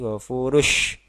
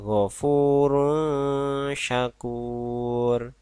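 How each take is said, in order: First: The n sound is merged into the sh. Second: The n sound is kept before the sh. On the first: The speaker calls it wrong. "apalagi ghafurush itu harus salah" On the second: The speaker calls it right. "maka kita baca ghafurun syakur"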